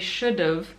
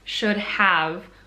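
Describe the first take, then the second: First: The second word shrinks to a short 'v' sound. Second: Both words are said fully and separately. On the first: "in spoken language, you would use a contraction" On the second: "What this is actually trying to say is should have"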